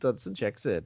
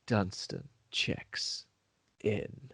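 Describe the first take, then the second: First: It is said in a plain, ordinary tone. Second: It is said in an ominous horror-movie tone.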